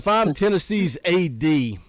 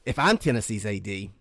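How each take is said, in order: First: It is read in his normal voice. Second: It is read in a put-on voice.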